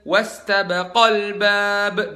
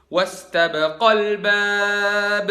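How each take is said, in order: First: The long vowel after 'baq' is stressed. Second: The long vowel after 'baq' is stressed.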